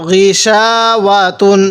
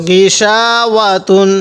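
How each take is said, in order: Both takes have the same delivery.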